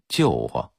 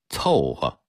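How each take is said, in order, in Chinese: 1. 第一个音节读作 jiu。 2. 第一个音节读作 cou。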